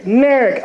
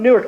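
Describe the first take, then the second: First: Newark squashed into "NAIR-ik"; local pronunciation of Newark. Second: Said in the usual way. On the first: Retold or imitated. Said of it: "you gotta ask them a couple times". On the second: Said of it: "so where are you from?".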